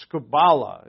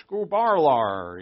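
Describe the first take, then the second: First: Scubala said plainly as koo-ba-la with no R; scubala, clean vowel ending; Greek pronunciation. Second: Scubarlar with an added R sound, slow; New England Greek. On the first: Shown as a demonstration. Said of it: "the word is scubala". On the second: Retold or imitated. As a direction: Scubarlar drawn out, R inserted at end. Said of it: "He'd use the R".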